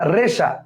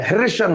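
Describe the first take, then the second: First: The word begins with an r sound. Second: The word begins with an h sound. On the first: The speaker calls it right. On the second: The speaker calls it wrong. "হেরেশা না, হয়ের উচ্চারণ নেই"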